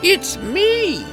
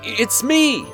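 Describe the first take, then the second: First: It is said in a put-on witch voice. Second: It is said in the prince's normal voice.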